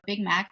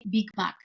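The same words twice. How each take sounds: First: It is said with an American English accent. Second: It is said with a Bulgarian accent. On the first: Local listeners would not understand it. The speaker calls it wrong. "I'm not gonna say hi, can I have a Big Mac?" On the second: Local listeners understand it. The speaker calls it right. "I have to say Big Mac because otherwise they don't know what that means"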